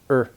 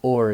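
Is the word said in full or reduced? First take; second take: reduced; full. First: The word is reduced to a weak er sound. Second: The word is said in its full form. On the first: "is er" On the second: "or is er"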